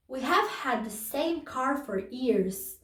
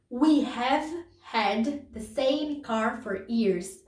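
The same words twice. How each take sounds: First: Said in the usual way. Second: Very slow, each word separate; slow model reading for students. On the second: Shown as a demonstration. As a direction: dictate it slowly to the class. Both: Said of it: "repeats example sentence".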